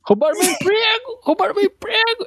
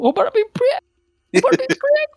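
First: Very high squeaky mock chant; chanted, mimic a whiny protester, high. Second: Very high squeaky mock chant, rising; chanted, screech it like a whiny protester. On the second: Repeats mocking chant.

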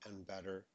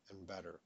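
No difference in how they are said.

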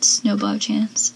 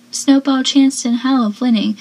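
First: "snowball chance" said slowly, lingering on each word; savoring the phrase. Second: Said in the usual way. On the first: Retold or imitated. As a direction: relish "snowball chance" like a favourite line. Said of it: "I love how she said". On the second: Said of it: "And Gail says".

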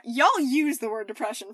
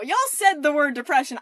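First: Said in the usual way. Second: Said punched louder; stress on said. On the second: Shown as a demonstration. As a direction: lean hard on said.

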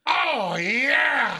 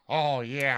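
First: High, loud drawn-out holler; Bobby. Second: Said in the usual way. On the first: Retold or imitated. Host imitating a friend's cheer, loud high holler. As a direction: shout it long and high. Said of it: "that was like a Bobby saying it".

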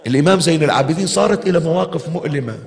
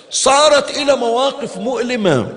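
First: Said in the usual way. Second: صارت stressed high on its first utterance; raised emphatic صارت. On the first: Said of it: "repeated phrase". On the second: Acted. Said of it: "repeated phrase stressed".

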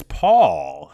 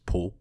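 First: "Paul" with an open "aw" vowel; loud American "Paul", with an "aw" sound; American pronunciation. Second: "Paul" said like "Pole"; "Paul" rhyming with "pole", as he says it; his Czech pronunciation. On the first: Shown as a demonstration. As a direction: say "Paul" the American way, rhyming with "hall". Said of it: "the American version of his name". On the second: Retold or imitated. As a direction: say "Paul" with a long O, imitating his accent. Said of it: "the way he said it, which was".

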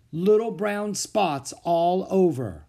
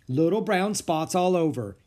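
First: Put-on slow, faraway little boy; Henry murmuring slowly, lost in thought; dazed boy. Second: Louder teacher cutting him off; teacher interrupting, a touch louder, impatient. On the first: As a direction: answer as if in a trance, slowly. Henry answers in a daze. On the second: Acted. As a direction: finish his words for him, impatient.

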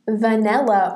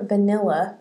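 First: "vanilla" said as "vanella"; alternate vanilla pronunciation. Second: Said in the usual way. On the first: Shown as a demonstration. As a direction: say vanilla with an E as in "bell" in the middle. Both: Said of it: "if that's how you say it".

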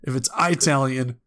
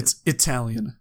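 First: "Italian" said "eye-TAL-yun", long eye; eye-talian. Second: "Italian" with a short i, "ih-TAL-yun"; proper Italian. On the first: Warning friends of the wrong Italian, mock. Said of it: "people hurt you". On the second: Correcting friends, proper Italian. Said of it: "If it's Italian, people hurt you". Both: Shown as a demonstration.

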